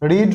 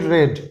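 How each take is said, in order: First: The vowel is a long 'ee' sound. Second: The vowel is a short 'e' sound. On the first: It is the present form of the verb. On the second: It is the past form of the verb. "উচ্চারণটা হয়ে যাবে রয়কার ড রেড"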